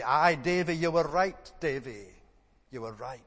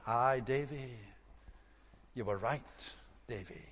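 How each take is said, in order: First: Loud broad Scots, fading at the end; broad Scots accent. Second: Soft broad Scots, trailing away; quietly, regretfully, in broad Scots; broad Scots accent. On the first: Old man at Livingstone's funeral, broad Scots, louder. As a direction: call it out in a broad Dundee Scots voice. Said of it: "a broad Scots accent was heard to say". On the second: Preacher repeats the old man's words, soft broad Scots. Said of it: "he would speak very broad Scots". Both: Retold or imitated.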